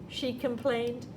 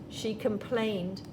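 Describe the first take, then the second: No difference in how they are said.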